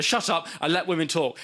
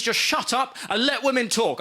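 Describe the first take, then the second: First: Said in the usual way. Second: Firm, higher-pitched read-out command; stern tweet. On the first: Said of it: "I thought". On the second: Retold or imitated. Comic reads out a tweet telling men off, stern. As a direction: lay it down like a firm order. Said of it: "this tweet and it said".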